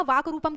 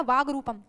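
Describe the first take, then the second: First: वाक रूपम with a crisp k ending वाक; hard k. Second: वाग रूपम with a voiced g ending वाग. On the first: Teacher showing the word before sandhi, hard k in वाक. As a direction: say वाक रूपम, closing वाक on an unvoiced k. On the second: Teacher showing the sandhi form, voiced g in वाग. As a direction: say वाग रूपम slowly, closing वाग on g. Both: Shown as a demonstration. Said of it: "की जगह आ जाएगा".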